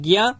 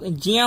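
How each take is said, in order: First: The syllable begins with a g sound. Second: The syllable begins with a j sound. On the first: "Hindi भाषी प्रदेशों में इसको पढ़ते हैं" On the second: "शुरू में ज ही आना चाहिए"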